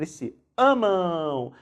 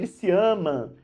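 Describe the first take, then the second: First: The last word ends with a nasal U glide. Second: The last word ends without a U glide. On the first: The speaker calls it right. "Então aparece aqui o som de U" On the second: The speaker calls it wrong. "Ninguém fala eles se amam"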